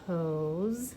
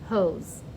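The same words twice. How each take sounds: First: The word is said at a normal volume. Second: The word is shouted loudly and energetically.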